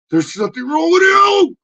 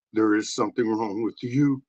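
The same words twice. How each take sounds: First: Shrill high puppet yelling it back; high puppet shout. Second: Said in the usual way. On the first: Acted.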